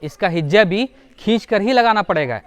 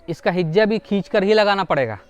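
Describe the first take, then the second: No difference in how they are said.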